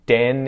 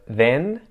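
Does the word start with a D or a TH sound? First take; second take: d; th. First: The word starts with a D sound. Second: The word starts with a TH sound. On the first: The speaker calls it wrong. "more like a D or a T sound" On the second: The speaker calls it right. "pay attention to the th sound"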